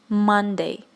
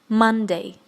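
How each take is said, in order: The two takes are said the same way.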